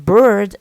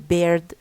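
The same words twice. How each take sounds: First: The vowel is a long central 'er' sound. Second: The vowel is replaced by an Arabic-style vowel. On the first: "in English we have the sound ö, okay, ö, as in bird" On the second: "Egyptian learners, for example, they they do not say this. They say bird"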